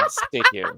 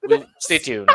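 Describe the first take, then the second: First: High singsong. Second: Said in the usual way. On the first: Shown as a demonstration. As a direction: stay tuned sung up high.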